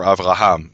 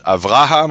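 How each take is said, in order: First: Avraham with the stress on HAM; Avraham, weight falling on the last syllable. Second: Avraham with the stress on RA; Avraham, middle syllable stressed, last one light. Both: Shown as a demonstration. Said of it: "what to emphasize in the word".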